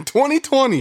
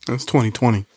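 First: Much higher, laughing exclamation. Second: Said in the usual way. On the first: Real, not acted. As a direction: crack up while saying it again. Laughing repeat.

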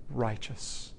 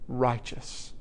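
First: "righteous" said softly and slowly, falling at the end; hushed emphasis. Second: "Righteous" said again, slightly fuller and more deliberate; firmer repeat. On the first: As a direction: let "righteous" sink in quietly. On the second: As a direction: repeat "Righteous" to drive it home. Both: Shown as a demonstration. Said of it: "you see the words".

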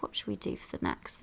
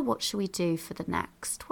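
First: Much softer, breathy whisper to herself. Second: Said in the usual way. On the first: Real, not acted. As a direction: whisper the question privately. Repeats question as whisper.

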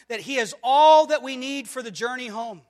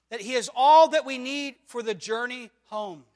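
Both takes have the same delivery.

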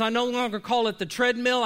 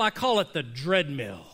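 First: Plain "treadmill"; the normal word "treadmill". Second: "dreadmill" with a hard D for treadmill; dreadmill pun. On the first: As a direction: say "treadmill" the usual way. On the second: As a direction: lower and punch the D in "dreadmill". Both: Shown as a demonstration.

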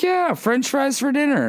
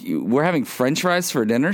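First: High-pitched mock mom voice, falling at the end; upbeat mom. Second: Retold child's question, rising at the end; lightly acted kid checking on dinner. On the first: Mom confirming french fries for dinner to her kid, high mock-cheery. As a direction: imitate a mom selling dinner in a much higher voice. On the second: Kid asking mom about french fries for dinner, mildly questioning.

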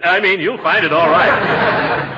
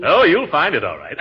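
First: "find" drawn out slowly with a rise; stress on find. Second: Said in the usual way. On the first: Acted. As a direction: lean slowly on "find", rising.

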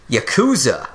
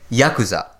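First: Yakuza as ya-KOO-za, middle syllable stressed; imitated mispronunciation. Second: Yakuza as YA-ku-za, first syllable stressed; correct pronunciation. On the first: Explaining what the search gave, mispronounced Yakuza with stressed KOO. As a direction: copy the wrong Yakuza, leaning on KOO. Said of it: "probably typed it into Google". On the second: Shown as a demonstration. Repeating after the Japanese clip, Yakuza correctly stressed on YA. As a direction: stress the YA in Yakuza, keep the rest light. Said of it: "emphasis on the first syllable is correct".

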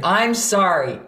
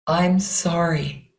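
First: Punchy, fiery mock apology. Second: Slow, heartfelt apology; heartfelt water voice. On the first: Teacher mimicking apology we've all heard, fiery. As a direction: fire the apology out insincerely. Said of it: "in a nice fiery voice". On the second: Teacher modelling a sincere apology, water voice. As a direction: let the apology flow from the heart. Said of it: "things your heart might want to say". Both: Shown as a demonstration.

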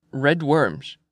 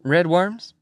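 First: RED WORMS as a statement, falling at the end; old Swede fisherman, mumbled reply. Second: RED WORMS as a question, rising high at the end; puzzled McMurphy. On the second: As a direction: query RED WORMS with a climbing tune. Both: Acted.

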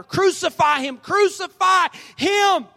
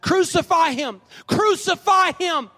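First: High, loud roar building to a long drawn-out last word; mob roaring louder. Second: High, slow, loud shout, rising on the repeat; crowd's shout. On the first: Mob roars back at Pilate even louder, building shout. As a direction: roar it out, stretching the final "him". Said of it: "the crowd roared even louder". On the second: Crowd shouts back at Pilate, high drawn-out shout. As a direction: shout it drawn out, like a mob demanding death. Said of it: "They shouted back". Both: Acted.

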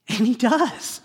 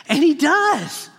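First: Said in the usual way. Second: And he does, said higher, louder and slowly with weight on he; triumphant slow proclamation; louder, slower emphatic repeat. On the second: Shown as a demonstration.

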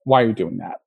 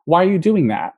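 First: "Why are you doing that?" said low and declarative, falling away; falling intonation. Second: "Why are you doing that?" asked with pitch lifted high on DOING; question intonation. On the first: Linguist imitating an engineer who sounds aggressive to designers, falling declarative intonation. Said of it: "But the way they said it was". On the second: Linguist showing a question as written in the transcript, questioning intonation. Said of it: "what they said was actually framed as a question". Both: Shown as a demonstration.

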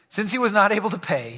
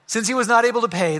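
First: Said in the usual way. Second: "not" hit hard, rest quicker; stress on not. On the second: Shown as a demonstration. Pastor rereading the verse to the congregation, leaning on "not". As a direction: punch the word "not" and move quickly through the line. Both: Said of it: "yeah, I guess not".

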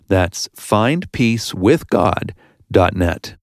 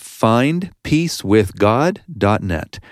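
First: Web address repeated slowly and clearly; host repeating the website slowly for listeners; slow, spelled-out web address. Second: Said in the usual way. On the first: Shown as a demonstration. Slowly stressing each word.

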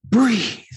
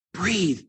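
First: Higher, insistent self-command; higher urgent self-command; urging herself. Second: Softly telling herself to breathe; quiet self-coaching. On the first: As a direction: push yourself to breathe. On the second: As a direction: murmur it to yourself. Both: Acted. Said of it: "she tells herself".

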